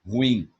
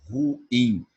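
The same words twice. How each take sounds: First: "Ruim" split cleanly into ru-im; ruim split in two. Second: "Ruim" said as one syllable, hui. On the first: Teacher to students, modeling the correct "Ruim" in two syllables. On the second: Teacher demonstrating the wrong "Ruim" with vowels run together. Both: Shown as a demonstration. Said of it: "não ruim".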